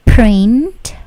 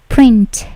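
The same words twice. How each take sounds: First: Print with a hard aspirated P burst; wrong strong P. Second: Print with a light P and no puff of air; soft unaspirated P. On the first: Teacher demos the wrong print with a heavy P puff. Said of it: "P-nya juga tidak terlalu plosif, bukan". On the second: Teacher demos the correct print with a soft P. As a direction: print said gently, no burst on the P. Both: Shown as a demonstration.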